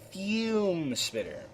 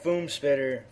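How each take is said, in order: First: The first word is said 'fyoom', with a y-sound. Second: The first word is said 'foom', with no y-sound. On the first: The speaker calls it right. "Let me let me say that correctly" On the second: The speaker calls it wrong. "I keep saying Foom"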